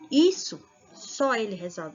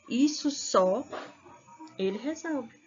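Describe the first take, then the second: First: There is no pause after 'só'. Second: There is a pause after 'isso só'. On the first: Only that one person can resolve it. "aquilo somente um único ser resolverá" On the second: The person resolves that by himself. "O primeiro está indicando isso só. A pessoa por si só resolve"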